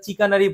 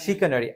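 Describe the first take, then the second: First: The word begins with a 'ch' sound. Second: The word begins with an 'sh' sound. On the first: The speaker calls it wrong. "এটা এবার চিকানারি বলো না" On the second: The speaker calls it right. "হ্যাঁ, it's শিকানারি"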